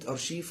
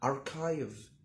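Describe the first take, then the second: First: The middle consonant is an 'sh' sound. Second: The middle consonant is a 'k' sound. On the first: The speaker calls it wrong. "مش ارشيف" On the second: The speaker calls it right. "نطقها أركايف"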